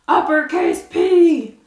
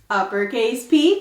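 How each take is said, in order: First: It is said in a fire-breathing dragon voice. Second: It is said in a normal voice.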